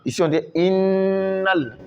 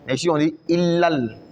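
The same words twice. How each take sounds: First: Innal, the n held long; innal with doubled n. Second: Illal with no held n sound; illal, no nazima; illal without nasal hold. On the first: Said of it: "on fait le nazima". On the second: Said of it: "on fait pas le nazima". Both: Shown as a demonstration.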